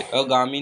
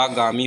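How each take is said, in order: First: अगामी with short अ at start; teacher shows the mistaken अगामी; wrong form अगामी. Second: आगामी with long आ at start; teacher models the correct आगामी; correct form आगामी. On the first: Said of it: "अगामी नहीं होता". (गलत रूप अगामी) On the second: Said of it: "आगामी होता है". (सही उच्चारण आगामी) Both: Shown as a demonstration.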